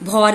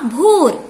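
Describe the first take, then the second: First: भौर with an open "au", like "bhaur"; wrong vowel औ. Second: भोर with a long "o", like "bhor"; corrected भोर, rounded "oh"; correct vowel ओ. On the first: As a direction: say भौर with औ in place of ओ. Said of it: "ये भौर गलत है". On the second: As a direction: say भोर with a pure ओ. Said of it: "आवाज आएगी ओ". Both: Shown as a demonstration.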